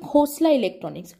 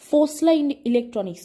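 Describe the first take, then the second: First: The name begins with a kh sound. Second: The name begins with an f sound. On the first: The speaker calls it right. "সেটা হচ্ছে খোসলা electronics" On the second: The speaker calls it wrong. "ফোসলা electronics না"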